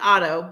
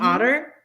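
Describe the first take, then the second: First: The middle consonant is said as a T. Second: The middle consonant is said as a D. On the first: "It's Otto" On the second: "he does not pronounce the T's. He says it D's"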